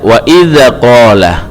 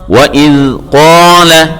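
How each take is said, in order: First: The dh sound bounces with an added vowel. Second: The dh sound is held still without bouncing. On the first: The speaker calls it wrong. "jangan dibaca wa idza qala" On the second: The speaker calls it right. "Cara membacanya adalah wa idz qala"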